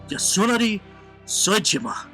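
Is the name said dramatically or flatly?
dramatically. The name is said dramatically with flair. It sounds cool. The speaker calls it right. "Sounds way better, right?"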